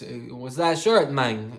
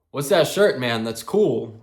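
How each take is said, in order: First: Slow, hammed-up Hispanic-accented impression; oversold Hispanic accent. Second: Said in the usual way. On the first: Gym guy asks about a band shirt, oversold Hispanic accent. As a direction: imitate a Hispanic accent, laid on thick. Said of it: "I'm overselling it now". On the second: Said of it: "he's got a little bit of an accent".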